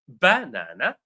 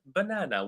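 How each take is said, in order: First: The stress is on the first syllable. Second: No syllable is stressed more than another. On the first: "syllable one" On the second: "with no stress"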